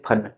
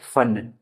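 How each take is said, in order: First: The first sound is said hard, not smoothly. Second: The first sound is said very smoothly. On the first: "Hindi के शब्द जैसे फन है, इसको तो बोलेंगे बेसिकली फन, ऐसे बोल लिया" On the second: It means skill or art. "बहुत ही स्मूथ तरीके से इसको बोला जाता है"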